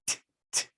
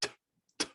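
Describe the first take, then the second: First: Whispered "T, t." with the tongue tip against the teeth; front T. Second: "T, t." made with the middle back of the tongue. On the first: Teacher contrasts Tet with Tav, front T whispered. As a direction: tap out "T, t." at the front of the mouth. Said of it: "T sound in the front of the mouth". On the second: Teacher shows Tav's back T after Tet. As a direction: press the T from further back on the tongue. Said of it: "tav is in the back of the mouth". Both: Shown as a demonstration.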